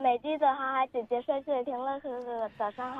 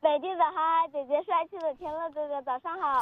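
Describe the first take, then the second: First: The greeting is said quietly. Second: The greeting is said loudly.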